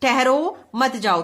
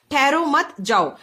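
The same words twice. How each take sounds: First: Slow "ठहरो", break, then "मत जाओ"; pause after ठहरो. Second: Slow "ठहरो मत", break, then "जाओ"; group "ठहरो मत" together, leaving "जाओ" separate; pause after मत. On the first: Teacher reading the order to stop, pausing after "ठहरो". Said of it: "इन्हें रुकने के लिए कह रही है". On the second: Teacher reading the option that is not ours, pausing after "मत". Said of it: "ये हमारा नहीं होगा बच्चों". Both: Shown as a demonstration.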